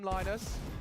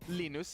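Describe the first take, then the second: First: The name has an English pronunciation. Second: The name has a Swedish pronunciation. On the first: "We're allowed to call him Linus" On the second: "if we were Swedish"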